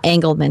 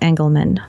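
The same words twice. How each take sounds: First: The first vowel sounds like an A. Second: The first vowel sounds like in 'English'. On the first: The speaker calls it wrong. "not Engelman, because it's not an A" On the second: The speaker calls it right. "I'm going to go with Engel, like English"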